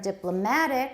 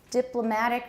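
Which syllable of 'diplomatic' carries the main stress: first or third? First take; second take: third; first. First: The main stress is on the third syllable. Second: The main stress is on the first syllable. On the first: "stress on the third syllable" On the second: "di now has taken over the main stress in this phrase"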